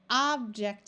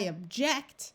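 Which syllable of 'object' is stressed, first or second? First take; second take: first; second. First: The stress is on the first syllable. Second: The stress is on the second syllable. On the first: It names a thing. "The noun form, the first syllable is accented" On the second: It expresses disagreement. "then you put the accent or the emphasis on the second syllable"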